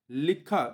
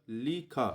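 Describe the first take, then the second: First: लिखा said as "lik-kha", k doubled; doubled consonant. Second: लिखा slowly as "li... khaa", single kh; single consonant, syllables apart. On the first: Teacher showing the misspelling, लिखा with doubled k. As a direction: hold a half k before kha in लिखा. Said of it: "यहाँ पे आधा का नहीं होगा". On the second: Teacher correcting spelling, slow लिखा without half k. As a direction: split लिखा into li and khaa, softly. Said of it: "केवल लिखा". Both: Shown as a demonstration.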